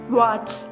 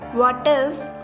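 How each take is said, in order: First: The words are run together into one syllable. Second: Two separate words, both fully pronounced.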